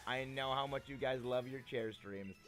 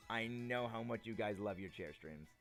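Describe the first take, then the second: No difference in how they are said.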